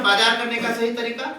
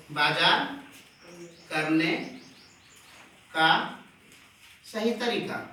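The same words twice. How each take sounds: First: Said in the usual way. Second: "बाजार", "करने", "का", "सही तरीका" each set apart by a long pause, softer; word by word. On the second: Shown as a demonstration. Teacher dictating the phrase to the class word by word. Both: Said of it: "इसी को हम लोग बोल सकते हैं sir".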